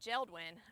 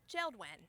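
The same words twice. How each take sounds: First: The name is pronounced in a plain, ordinary way. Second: The name is pronounced in a fancy, posh way. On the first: These are ordinary windows. "instead of saying" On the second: These are fancy windows. "I like to pronounce it Geldwin because they're fancy"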